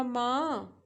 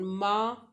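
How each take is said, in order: First: "माँ" drawn out with a dip and a climb; long scooped "माँ"; falling-rising tone. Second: "माँ" held long on one even pitch; steady, unbending "माँ"; high flat tone. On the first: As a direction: bend "माँ" down then back up, Mandarin third tone. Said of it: "falling rising tone". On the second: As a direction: sustain "माँ" level, like Mandarin first tone. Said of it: "high flat tone". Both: Shown as a demonstration.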